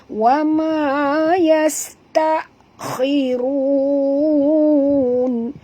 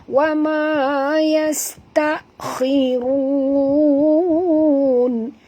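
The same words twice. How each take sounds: Both takes have the same delivery.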